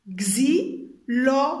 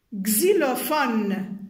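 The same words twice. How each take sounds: First: XYLOPHONE as xy, lo, fo, ne, loud separate beats; syllable by syllable. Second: Said in the usual way. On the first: Shown as a demonstration. Teacher tapping four syllables for pupils, each separate. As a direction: slowly count out xylophone in four pieces. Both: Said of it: "Quatre syllabes".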